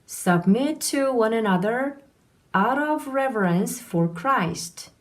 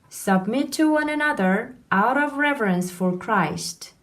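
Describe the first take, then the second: First: It is said at a normal pace. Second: It is said a little faster.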